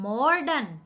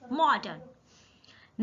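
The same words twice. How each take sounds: First: The r sound comes before the d. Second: The r sound comes after the d. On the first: The speaker calls it wrong. "जो रे ड के बाद पढ़ा जाता है हम इसको नॉर्मली डे से पहले पढ़ते हैं" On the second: The speaker calls it right. "रे ड के बाद पढ़ा जाता है"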